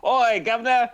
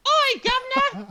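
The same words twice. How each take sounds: First: High, loud hammed-up English greeting; jokey English accent, pitched up. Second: Very high, loud falsetto English woman; hammed-up falsetto drag voice; Monty Python female character. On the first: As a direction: call out in mock English accent. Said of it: "do an English accent". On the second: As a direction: screech it as a sketch-comedy English lady. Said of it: "traditional female character from Monty Python".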